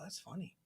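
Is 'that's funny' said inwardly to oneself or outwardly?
inward. It is said quietly, inwardly, as if to oneself. The thing really is funny. "almost like inwards to myself"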